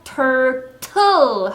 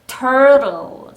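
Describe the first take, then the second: First: The second t is as strong as the first. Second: The second t is weak and soft. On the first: The speaker calls it wrong. "turtle 하시는 것보다" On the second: The speaker calls it right. "뒤에 있는 t는 약하게"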